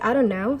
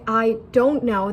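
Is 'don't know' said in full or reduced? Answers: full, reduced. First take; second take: reduced; full. First: The words blur together into dunno. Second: Each word is pronounced fully and separately. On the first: "they say I don't know. So dunno" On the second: "instead of saying"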